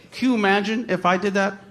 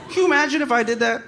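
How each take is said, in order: First: Said in the usual way. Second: Incredulous. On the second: Real, not acted.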